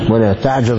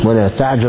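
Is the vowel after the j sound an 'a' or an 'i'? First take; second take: a; a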